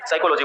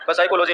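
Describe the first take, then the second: First: The initial p sound is silent. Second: The initial p sound is pronounced. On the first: The speaker calls it right. "साइकोलॉजी बोलते हैं" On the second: The speaker calls it wrong. "पसाइकोलॉजी नहीं बोलते"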